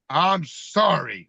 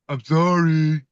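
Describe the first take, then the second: First: It sounds overdone, putting on sincerity. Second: It sounds grudging and half-hearted.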